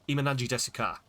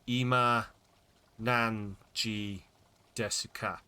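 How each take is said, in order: First: It is said at a normal, quick pace. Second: It is said slowly, word by word.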